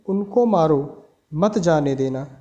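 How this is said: There is a pause right after 'maaro'.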